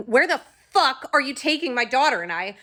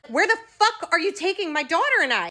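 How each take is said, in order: First: Raised, furious demand; angry yell. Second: Much higher, furious scream; louder angry scream. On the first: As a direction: confront the guards, voice rising. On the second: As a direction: push it further, screaming the question. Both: Retold or imitated. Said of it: "I started screaming at them".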